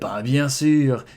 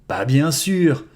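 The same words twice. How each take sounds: First: It is said deep in the throat. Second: It is said in a normal voice.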